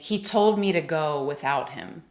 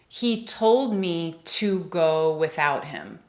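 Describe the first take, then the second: First: The word 'to' is reduced to 'ta'. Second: The word 'to' is said in full.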